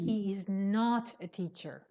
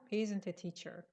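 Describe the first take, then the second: First: The word not is strongly stressed. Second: The negative is contracted and unstressed. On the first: It emphasizes that he is not a teacher. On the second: It simply answers a question.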